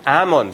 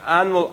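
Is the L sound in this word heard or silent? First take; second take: silent; heard. First: The L sound is left out of the word. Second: The L sound is pronounced in the word. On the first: The speaker calls it right. "So it should be almond, like Arnold" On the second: The speaker calls it wrong. "I always forget that you should not pronounce the L in almond"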